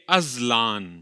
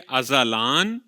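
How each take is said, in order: First: No vowel follows the z sound. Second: A short 'a' vowel follows the z sound. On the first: "दूसरी में ज़े को साकिन पढ़ेंगे" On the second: "पहली में ज़े पर ज़बर आएगा"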